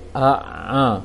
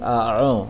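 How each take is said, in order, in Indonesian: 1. Bibir tetap terbuka saat ain diucapkan. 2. Bibir membulat saat ain diucapkan. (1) "tapi a'a" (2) "Jangan a'a"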